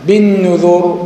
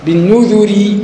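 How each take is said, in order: First: بالنذر ending on a heavy stopped r; pausal form. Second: بالنذر with a light r and final i; connected reading. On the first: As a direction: stop on بالنذر with a silent, heavy r. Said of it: "وقفت على الراء بقت ساكنة وقبلها ضمة". (بالنذر وقفاً براء ساكنة مفخمة) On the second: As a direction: say بالنذر joined, with a thin r and kasra. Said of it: "راء مرققة وصلًا". (بالنذر وصلاً براء مرققة مكسورة) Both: Shown as a demonstration.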